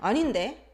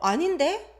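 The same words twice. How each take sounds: First: It is said with an argumentative tone. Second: It is said with a surprised tone. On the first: The speaker is telling the listener they are wrong. "Or arguing" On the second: The speaker has just realized something is not right.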